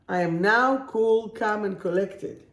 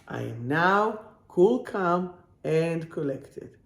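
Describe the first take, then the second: First: Said in the usual way. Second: Measured, word-by-word affirmation; slow, deliberate repeat. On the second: Real, not acted. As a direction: spell out each phrase slowly, with pauses. Affirmation repeated slowly for emphasis.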